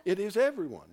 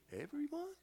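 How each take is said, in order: First: EVERYONE said loud and falling, as a settled fact; "everyone" landed hard with a downward close; firm statement. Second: EVERYONE with a high rising question at the end. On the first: Shown as a demonstration. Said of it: "don't have to say it like that". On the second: Retold or imitated. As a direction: mimic an unsure answer, "Everyone?" pitched up. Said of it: "You said it like a question".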